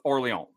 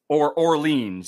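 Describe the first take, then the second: First: The name is said with a French pronunciation. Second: The name is said as its English spelling suggests.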